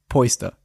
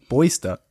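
First: The word begins with a hard P sound. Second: The word begins with a soft B sound. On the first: The speaker calls it wrong. "sagt man Polster. Oder beziehungsweise okay" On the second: The speaker calls it right. "Man sagt es sogar mit weichem B"

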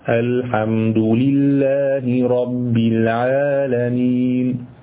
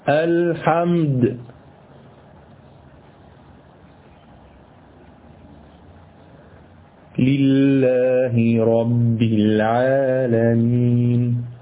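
First: The phrase runs on without a pause after al-hamdu. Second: There is a pause right after al-hamdu.

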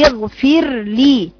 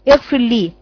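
First: The r sound is clearly separated from the l. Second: The r sound is nearly merged into the l. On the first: The speaker calls it right. "افصلي بين مخرج الراء واللام" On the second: The speaker calls it wrong. "ان الراء بتعمليها شبه مضغمة في اللام"

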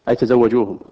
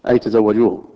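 No difference in how they are said.

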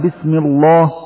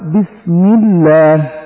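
First: The L in Allah is thick and heavy. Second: The L in Allah is thin and light. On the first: The speaker calls it wrong. "لا تقول" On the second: The speaker calls it right. "أما حالات ترقيق اللام فقط إذا كان قبلها كسر، كأن تقول"

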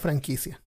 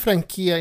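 First: The word has a Spanish-style pronunciation. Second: The word has a Portuguese-style pronunciation. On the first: The speaker calls it right. "y no franquicia?" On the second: The speaker calls it wrong. "¿Por qué esa franquicia"

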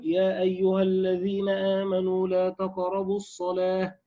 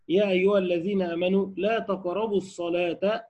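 First: The recitation stops right after the last word. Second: The recitation continues on without stopping. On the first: Prayer is forbidden altogether. The speaker calls it wrong. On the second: Do not approach prayer while intoxicated. The speaker calls it right.

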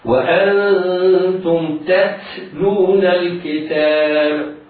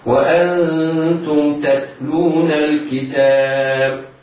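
First: The t sounds over-breathy, tinged with an s. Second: The t sounds crisp and easy, without s-hiss. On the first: The speaker calls it wrong. "فيتحول من ذلك التاء في حال همسها تكون كأنها أشربت صوت السين فيقرأ خطأ هكذا" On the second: The speaker calls it right. "يخرج الحرف من مخرجه متصفا بصفاته الذاتية في يسر وسلاسة"

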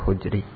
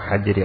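First: The first vowel is u. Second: The first vowel is a. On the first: "harakat ha ini bisa dibaca tiga-tiganya" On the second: "harakat ha ini bisa dibaca tiga-tiganya"

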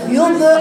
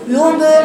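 First: The b is coloured by a u-like vowel. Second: The b is coloured by a u-like vowel.

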